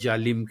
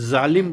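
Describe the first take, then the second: First: The word begins with a j sound. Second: The word begins with a z sound. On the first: The speaker calls it wrong. "बगैर जालिम के" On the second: The speaker calls it right. "ज़ालिम बोला जाए"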